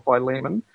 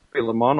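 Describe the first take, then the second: First: Philemon pronounced fy-LEE-mun; long-i pronunciation. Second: Philemon pronounced FIL-uh-mon; short-i pronunciation. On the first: Host giving the alternative name, Philemon as fy-LEE-mun. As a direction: stress the middle of Philemon, long i first. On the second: Host naming the excepted book, Philemon as FIL-uh-mon. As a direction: stress the first syllable of Philemon, short i. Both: Shown as a demonstration. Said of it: "however you wanna, uh, pronounce it".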